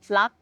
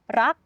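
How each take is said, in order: First: The word starts with an L sound. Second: The word starts with an R sound. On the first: "we change it into the L" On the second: "if the R is at the start"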